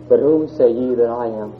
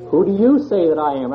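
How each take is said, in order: First: Said in the usual way. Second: "you" lifted higher and pressed as the key word; stress on you. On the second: Shown as a demonstration. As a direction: lean on "you", making it personal to the listener. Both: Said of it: "where would you put the emphasis".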